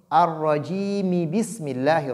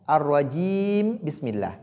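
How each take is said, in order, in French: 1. Rajim se termine par un i bref avant bismillah. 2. Rajim se termine par un m nu avant bismillah. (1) "lire la voyelle courte qui est kasra" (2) "Je ne dis pas Ar-rajim bismillah"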